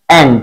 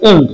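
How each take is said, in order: First: And said like the word "and", lower; and, with the a sound of "and"; and pronounced like "and"; taught pronunciation. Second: The common wrong "end"; wrong pronunciation. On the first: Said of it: "কিন্তু এর উচ্চারণ হবে". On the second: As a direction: end said with a short e, as written. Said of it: "আমরা উচ্চারণ করি". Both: Shown as a demonstration.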